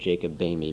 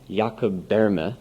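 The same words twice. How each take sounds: First: The surname is said with an English-style pronunciation. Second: The surname is said with a foreign-sounding pronunciation. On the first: "actually better said Jacob Boehme" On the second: "nobody can pronounce it the other way"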